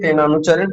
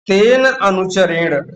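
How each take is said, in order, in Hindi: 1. दोनों शब्द एक साथ जोड़कर बोले गए हैं। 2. दोनों शब्द अलग-अलग बोले गए हैं। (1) "एक साथ बोलेंगे" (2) "थोड़ा सा इसको सरल कर लेते हैं"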